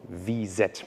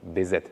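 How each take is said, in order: First: The first letter is said with a V sound. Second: The first letter is said with a B sound. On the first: "are called" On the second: "like the Spanish say, ... because they pronounce the V as a B"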